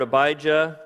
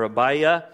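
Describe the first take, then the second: First: Abijah with an English J, "a-BY-juh"; with J sound. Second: Abiah without the J, "a-BY-uh"; no J sound. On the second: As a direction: glide through Abiah with a Y, no J. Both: Shown as a demonstration. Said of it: "there's no J sound in Hebrew".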